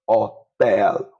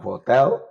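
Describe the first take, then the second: First: "hotel" as oh-TEL, starting on the o; silent H. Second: "hotel" with the h pronounced; H sounded, wrong way. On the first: Teacher giving the Spanish way to learners, silent h. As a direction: say "hotel" with no h at all. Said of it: "So you don't have it". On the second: Teacher showing the wrong reading to learners, h sounded. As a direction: say "hotel" the English way, audible h. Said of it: "You don't have hotel". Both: Shown as a demonstration.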